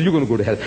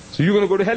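First: Mere disputation. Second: Higher-pitched retold challenge; mere disputation. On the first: Retold or imitated. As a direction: lower retort in a retold squabble. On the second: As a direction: fire the accusation across, pitched up. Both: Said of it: "That's mere disputation".

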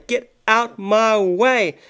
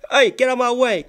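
First: Very slow, drawn-out get out my way; lazy drawn-out order; slow demand. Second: Said in the usual way. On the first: Acted. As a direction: stretch every word of get out my way. Voicing pushy dancer.

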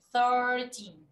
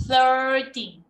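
First: Said in the usual way. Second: Thirteen with the tongue pushed out on the th, louder. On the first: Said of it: "la lengua hacia afuera". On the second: Shown as a demonstration. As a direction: show the tongue between the teeth on thirteen. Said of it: "mírame".

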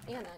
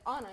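First: Anna starting with a short, front A. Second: Anna starting AH, as in Ana. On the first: Rejecting the wrong name sound, Anna said AN-na. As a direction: say Anna with the A of cat. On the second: Correcting how a name sounds, Anna said AH-na. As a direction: say Anna with an open AH. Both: Shown as a demonstration. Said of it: "sounds like Anna, not Anna".

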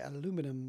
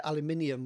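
First: "aluminum" said the American way, a-LOO-min-um; four syllables in "aluminum", stressed on LOO; American pronunciation. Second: "aluminium" said the British way, al-yoo-MIN-ee-um; five syllables in "aluminium", stressed on MIN; British pronunciation. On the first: Quoting the States' version, American "aluminum". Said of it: "in the States they say aluminum". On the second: Comparing with the States, British "aluminium". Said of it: "we'd say aluminium". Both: Shown as a demonstration.

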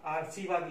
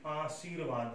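First: आशीर्वाद with r moved forward; wrong form. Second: आशीर्वाद slowly, r before "vaad"; corrected form. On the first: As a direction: say आशीर्वाद as aar-see-vaad. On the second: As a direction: sound the r late in आशीर्वाद. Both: Shown as a demonstration. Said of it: "तो सही क्या होगा".

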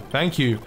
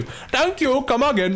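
First: Said in the usual way. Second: Very high, silly put-on voice; comic shopkeeper catchphrase. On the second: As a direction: squeal the thanks like a cartoon shopkeeper. Repeated thanks turns into comic catchphrase.

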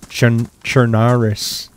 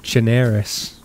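First: Halting "Chernaris", chern... cher-NAH-rus, drawn out; awkward foreign pronunciation. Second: "Chernarus" with an "air" vowel, cher-NAIR-us; slight Boston accent. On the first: Player failing at the correction, "Chernaris" as halting cher-NAH-rus. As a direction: struggle through "Chernaris" with an open "ah". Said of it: "My mouth doesn't move that way". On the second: Player showing the real Boston way, "Chernarus" as cher-NAIR-us. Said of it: "It's just like". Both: Shown as a demonstration.

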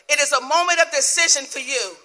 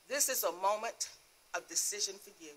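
First: Raised, loud preacher's declaration; forceful divine proclamation. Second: Soft, hushed word from God; quiet divine voice. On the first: God presses a believer to decide, loud and commanding. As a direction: proclaim it high and strong as God's word. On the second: The Lord counsels a crying believer at night, quiet and grave. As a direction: say it softly, letting the end drop away. God speaking gently in testimony. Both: Retold or imitated.

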